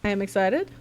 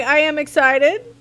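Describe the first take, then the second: First: Said in the usual way. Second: High, loud, excited. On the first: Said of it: "Sometimes I sound like a robot". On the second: Shown as a demonstration. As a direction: burst out with excitement. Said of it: "I'm like".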